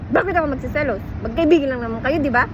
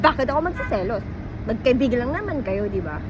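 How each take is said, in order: First: It is said in an angry, irritated tone. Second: It is said in a sarcastic, mocking tone.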